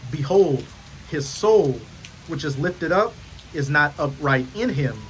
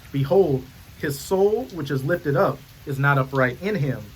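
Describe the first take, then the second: The two takes are said the same way.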